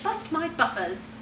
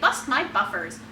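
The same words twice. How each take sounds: First: It is said in a British accent. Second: It is said in a general American accent. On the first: "the British" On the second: "the American"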